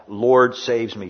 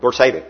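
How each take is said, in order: First: "Lord saves me" said slowly, each word carefully enunciated; careful, drawn-out "Lord saves me"; slow enunciation. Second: "Lord, save me" blurted fast and a bit louder; quick, clipped-together "Lord, save me"; hasty plea. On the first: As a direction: spell out every word, unhurried. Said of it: "slowly enunciating each word". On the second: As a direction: rush it out as if sinking. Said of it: "how quickly soon you say that". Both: Shown as a demonstration.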